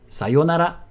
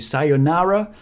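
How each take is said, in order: First: It is said with a Japanese accent. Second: It is said with an American accent. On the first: The speaker calls it right. "but it's sayonara" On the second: The speaker calls it wrong. "the American way"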